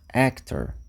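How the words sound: The first vowel sounds like 'eh'. "actor começa com o som E"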